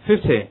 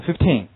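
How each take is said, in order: First: "fifty" with only FIF stressed; stress on first syllable. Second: "Fifteen" unexaggerated, both syllables stressed. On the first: Teacher contrasting numbers for students, "fifty" stressed on first syllable only. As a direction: hit FIF, let "ty" fall away in "fifty". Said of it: "只是在第一个音节上有重音". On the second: Teacher contrasting numbers for students, "Fifteen" stressed on both syllables. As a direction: keep TEEN stressed in "Fifteen", ending on the n. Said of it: "我们就按照正常规则来读行了". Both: Shown as a demonstration.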